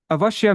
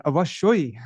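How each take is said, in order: First: Avashya said plainly with a short open ending. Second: Avashoi ending in an oi glide for emphasis; emphatic avashoi. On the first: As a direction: say Avashya without the extra vowel. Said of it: "but then avashoi means". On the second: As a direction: close avashoi on oi to stress it. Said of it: "avashoi means, like, totally". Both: Shown as a demonstration.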